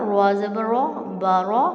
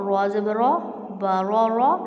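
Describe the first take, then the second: Both takes have the same delivery.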